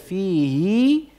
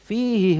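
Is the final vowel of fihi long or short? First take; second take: long; short. First: The final vowel of fihi is lengthened. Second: The final vowel of fihi is short. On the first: "Ini hinya dibaca dengan panjang atau silah" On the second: "Kenapa hinya dibaca pendek?"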